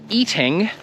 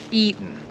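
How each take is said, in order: First: The word ends with a clear G sound. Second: The word ends without a G sound. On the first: The speaker calls it wrong. "Now obviously you could say eating, ... that does not sound natural" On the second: The speaker calls it right. "we don't pronounce those consonants"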